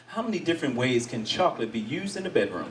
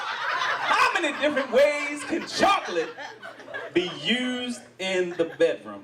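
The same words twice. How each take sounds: First: Said in the usual way. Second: Slower, higher, savoring the question; teasing slow reread. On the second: Shown as a demonstration. Host rereading the chocolate question to the crowd, teasing. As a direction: drawl it out suggestively. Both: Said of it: "That's how I'd like to start".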